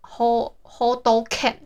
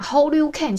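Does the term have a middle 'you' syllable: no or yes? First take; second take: no; yes. First: It has two syllables, with no middle 'you'. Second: It has three syllables, with a middle 'you'. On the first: This is how it is actually said. The speaker calls it right. "好像是什么hold can" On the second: This is how most people say it. The speaker calls it wrong. "我们都会讲hold you can，其实不是hold you can"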